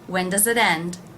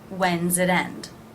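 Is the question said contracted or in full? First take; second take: full; contracted. First: The words when and does are said separately. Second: When and does merge into one syllable, when's.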